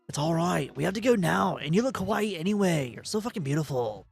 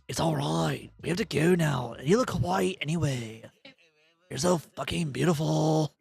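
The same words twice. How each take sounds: First: It is read in a plain voice. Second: It is read in a seductive voice.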